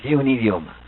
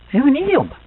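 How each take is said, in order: First: Said in the usual way. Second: Idioma said high and loud, a firm fall at the end; stress on idioma. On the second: Shown as a demonstration. Teacher to class, stressing that Guaraní is a real language: idioma said high and loud.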